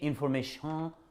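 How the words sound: It is said with a French accent.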